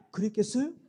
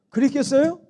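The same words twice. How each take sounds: First: Laughing question. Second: 그랬겠어요 asked again higher and louder with a rising end; loud rhetorical question. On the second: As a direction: push 그랬겠어요 up loud to the congregation. (그랬겠어요를 크게 올려 묻기) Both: Real, not acted. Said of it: "rhetorical question repeated".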